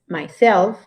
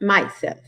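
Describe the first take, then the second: First: The stress is on the second syllable. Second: The stress is on the first syllable. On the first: The speaker calls it right. "It's myself" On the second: The speaker calls it wrong. "it's not myself"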